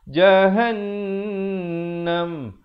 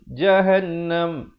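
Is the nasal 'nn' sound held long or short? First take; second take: long; short. First: The nasal sound is held for two beats. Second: The nasal sound is short, not held. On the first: The speaker calls it right. "Yang betulnya jahannam" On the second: The speaker calls it wrong. "Dia tak dengungkan dua harakat"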